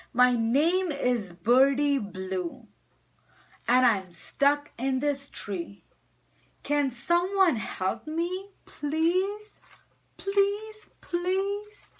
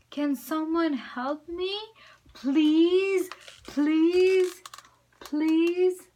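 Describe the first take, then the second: First: Climbing higher, begging please; loud pleading call. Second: High, loud begging please; pleading cry. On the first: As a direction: call out as loud as a little bird can. Bird calls loud as can. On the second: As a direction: plead louder each time. Bird begs louder. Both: Acted.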